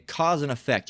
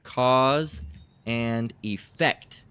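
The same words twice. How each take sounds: First: Said in the usual way. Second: "Cause and effect" stretched out, with a pause after "Cause"; slow dictation. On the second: Shown as a demonstration. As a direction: dictate "Cause and effect" slowly for someone looking it up. Term dictated for looking up.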